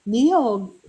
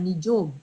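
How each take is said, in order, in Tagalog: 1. Ang gitnang tunog ay binibigkas nang may bilog na dila. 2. Ang gitnang tunog ay binibigkas nang walang bilog na dila. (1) "yung dila mo ibibilog" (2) "ginagawa nilang nijog"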